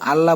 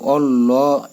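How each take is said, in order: First: The word is said thin, without rounding. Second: The word is said heavy, with rounded lips. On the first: The speaker calls it wrong. "আল্লাহ বলে অনেকে" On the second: The speaker calls it right. "কিন্তু এটা গোল করে বলতে হবে"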